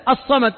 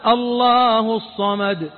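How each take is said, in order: First: Said in the usual way. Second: Drawn-out, slow recited الله الصمد; reciting الله الصمد slowly to ask its meaning; slow recitation. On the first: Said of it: "لكن هل أنت تسأله". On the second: Shown as a demonstration. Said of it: "إيش معنى الصمد".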